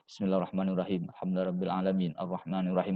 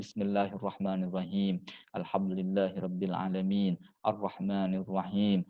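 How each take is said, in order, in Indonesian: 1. Dibacanya cepat dan terburu-buru. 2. Dibacanya pelan dan hati-hati. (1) "Enggak boleh" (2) "Baca surah Al-Fatihahnya yang bagus, yang tertib, yang tartil"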